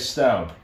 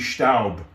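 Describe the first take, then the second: First: The name is pronounced the English way. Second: The name is pronounced the German way. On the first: "But in English, you'd say Staub" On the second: "The German origin could be Staub"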